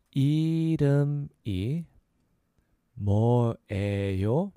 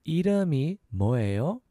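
First: 이름이 뭐예요 slow, each piece drawn out; slow syllable breakdown. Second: 이름이 뭐예요 in two quicker pieces, rising; a little faster. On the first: Teacher repeating "what's your name", slow syllables. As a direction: stretch and separate 이름이 뭐예요. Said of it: "So a little faster". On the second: Teacher asking "what's your name", a little faster. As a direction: join the syllables of 이름이 뭐예요. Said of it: "So a little faster, that's". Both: Shown as a demonstration.

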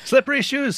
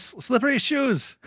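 First: Data voice. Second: Data voice, slower. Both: Retold or imitated. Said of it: "naming Data's gadget".

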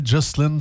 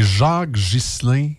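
First: Ghislain said the English way, like "jozlen"; English pronunciation. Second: Said in the usual way. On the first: Shown as a demonstration. Host shows how English speakers say Ghislain, anglicized. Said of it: "Mais là, en anglais, Ghislain, ça sonnait drôle". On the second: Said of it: "Mais là, en anglais".

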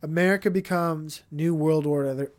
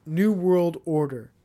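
First: Said in the usual way. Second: "New World Order" repeated slowly, each word weighted; slow emphatic repeat. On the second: Shown as a demonstration.

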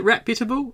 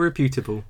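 First: Reputable stressed on REP; stress on first syllable. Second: Reputable stressed on PYU; stress on second syllable. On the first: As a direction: say reputable as REP-yuh-tuh-bul. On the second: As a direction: say reputable as ri-PYOO-tuh-bul. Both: Shown as a demonstration. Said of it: "Is it reputable or reputable?".

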